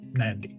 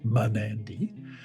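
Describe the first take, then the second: First: A faint M runs straight into the N. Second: A full vowel separates the M and the N. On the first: The speaker calls it right. "the M is almost silent. It just hints at itself at the beginning" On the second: The speaker calls it wrong. "it should not be pronounced Manandi"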